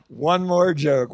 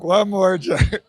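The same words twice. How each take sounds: First: Chuckling plea; giggly begging; laughing through it. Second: Slow, pressing ask for one more; insisting on one more joke; louder, slow plea. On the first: Real, not acted. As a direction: laugh as you ask. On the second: Acted. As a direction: drag out the plea.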